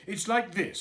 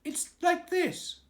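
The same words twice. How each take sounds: First: Higher, louder Pooh voice, halting; Pooh fumbling. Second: Much higher, slow squeaky piglet voice. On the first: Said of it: "said Pooh". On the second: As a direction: squeak it in to rescue Pooh. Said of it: "said Piglet quickly". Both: Acted.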